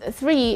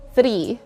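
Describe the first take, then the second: First: The R is said the English way. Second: The R is said the Filipino way. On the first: The speaker calls it right. "This word is three" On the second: The speaker calls it wrong. "and not three"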